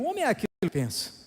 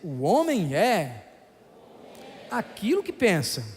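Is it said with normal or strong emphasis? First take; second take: normal; strong. First: It is said with normal, plain emphasis. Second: It is said with strong, forceful emphasis.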